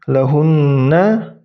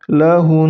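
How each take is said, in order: First: The word ends with a full na syllable. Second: The word ends abruptly on a bare n. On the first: "misalnya ini contohnya lahunna" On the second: "ketika disukunkan itu berubah menjadi lahun"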